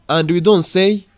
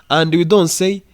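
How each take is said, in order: No difference in how they are said.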